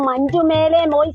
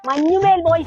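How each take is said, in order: First: The name is split into 'manju mele'. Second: The name is said as one word 'manjummel'. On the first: The speaker calls it wrong. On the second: The speaker calls it right.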